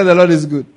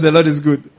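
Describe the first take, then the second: First: Louder still, hitting Lord; stronger proclamation. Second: Proclaiming loudly. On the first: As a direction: punch Lord hard. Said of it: "I said". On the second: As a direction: call it out to the congregation, louder. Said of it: "I said, The Lord is good". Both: Real, not acted.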